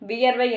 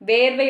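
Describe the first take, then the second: First: The first syllable has a vi-ya glide. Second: The first syllable is a plain long ve. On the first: This is the proper written form. The speaker calls it right. "கரெக்டான எழுத்து வழக்கு" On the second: This is the everyday spoken form. The speaker calls it wrong. "வேர்வை வந்து கிடையாது"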